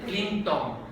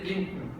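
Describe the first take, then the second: First: A vowel is pronounced before the final n. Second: The final n forms the syllable without a vowel. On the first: This is how Spanish speakers must say it. "tenemos que decir Clinton" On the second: This is how English speakers say it. "en español no podemos decir Clinton"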